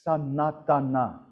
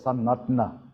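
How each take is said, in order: First: The vowel is pronounced fully. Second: The vowel is swallowed. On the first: "It's spelled as Sanatana" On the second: "it's pronounced as Sanatana"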